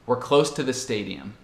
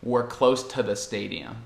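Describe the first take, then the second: No difference in how they are said.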